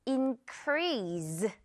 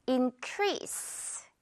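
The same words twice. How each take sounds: First: Increase with a buzzing Z sound at the end; wrong Z ending. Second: Increase ending on a crisp hissed s. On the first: Retold or imitated. Teacher showing the common mistake, increase with a z. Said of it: "마지막 이 에스이를 약간 Z로". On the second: Shown as a demonstration. Teacher giving the correct form, increase with a sharp s. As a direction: finish increase with a clean s sound. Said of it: "역시 S 발음이에요".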